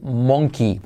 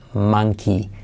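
First: The first vowel is a spelled-out 'o' sound. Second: The first vowel sounds like the 'a' in 'man'. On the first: The speaker calls it wrong. "en los colegios nos enseñan a decir monkey, porque se escribe monkey" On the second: The speaker calls it right. "pero se dice monkey"

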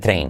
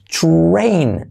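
First: The R is plain, with no glide after it. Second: The R is followed by a brief oo-like glide. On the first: The speaker calls it wrong. "en lugar de train" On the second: The speaker calls it right. "O decir train"

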